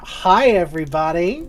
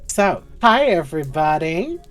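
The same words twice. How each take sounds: First: Bigger, louder hi everybody; louder second greeting. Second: Said in the usual way. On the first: Real, not acted. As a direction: call it out again with more energy. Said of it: "Come on now". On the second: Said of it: "call and response".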